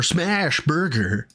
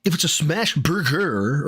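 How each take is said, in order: First: "smash" stretched long, then "burger"; drawn-out stress on SMASH before "burger"; imitating Phil. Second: Odd drawn-out stress on "burger"; slowed "smash burger", weight on the wrong word; imitating Phil. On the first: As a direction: lean hard on "smash" in a mock cadence. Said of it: "putting the emphasis on the wrong syllable". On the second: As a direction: stretch "burger" in a mock of a strange cadence. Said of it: "I don't know how to talk like Phil".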